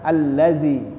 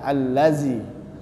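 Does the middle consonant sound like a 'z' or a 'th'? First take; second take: th; z. First: The consonant is a soft th, tongue tip out. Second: The consonant is a buzzing z, tongue kept inside. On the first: The speaker calls it right. "tapi kalau kita keluarkan" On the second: The speaker calls it wrong. "Karena ujung lidah tidak kita keluarkan"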